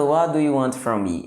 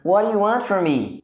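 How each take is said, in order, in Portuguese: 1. Cada palavra é dita separadamente e com clareza. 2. As palavras são emendadas numa única sequência. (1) "Ele não pergunta" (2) "Ele pergunta... ele meio que junta tudo"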